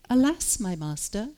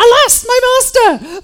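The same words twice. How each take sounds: First: It is read in a calm, plain voice. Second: It is said in a panicked, emotional voice. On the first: The speaker calls it wrong. "But I don't think he said it like that" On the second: The speaker calls it right. "I think there was a little more emotion"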